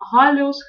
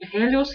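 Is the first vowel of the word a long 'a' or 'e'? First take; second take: a; e. First: The first vowel is a long 'a' sound. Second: The first vowel is a long 'e' sound. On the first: This is the Doric dialect form. "слова слева – это дорийский диалект" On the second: This is the Ionic dialect form. "приличный ионийец это произносил и писал как"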